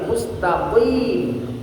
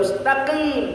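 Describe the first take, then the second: First: The consonants are pronounced heavy and thick. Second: The consonants are pronounced light and thin. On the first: The speaker calls it right. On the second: The speaker calls it wrong. "bukan mustaqim"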